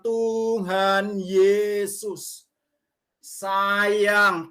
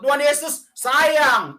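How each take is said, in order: First: The phrase is said slowly, word by word. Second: The phrase is said quickly, run together. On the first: The speaker calls it right. "Jadi pelan-pelan" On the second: The speaker calls it wrong. "enggak bisa cepat-cepat"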